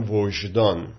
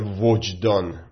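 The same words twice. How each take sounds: First: The middle consonant is pronounced as 'zh'. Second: The middle consonant is pronounced as 'j'. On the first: This is the original Persian form of the word. "میگن وجدان" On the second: This is the Arabicized form of the word. "اکثرا نمیگن وجدان"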